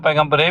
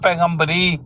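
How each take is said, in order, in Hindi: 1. यह शब्द 'ay' की आवाज़ से खत्म होता है। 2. यह शब्द 'ee' की आवाज़ से खत्म होता है। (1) "तो हम उसको पैगंबरे भी पढ़ लेते हैं" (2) "तो वो पढ़ते हैं पैगंबरी"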